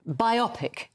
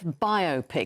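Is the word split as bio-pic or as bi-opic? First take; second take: bi-opic; bio-pic. First: The word is not split as bio plus pic. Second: The word is split as bio plus pic. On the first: The speaker calls it wrong. "People say biopic instead of" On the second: The speaker calls it right. "it's biographical picture. That's why it's biopic"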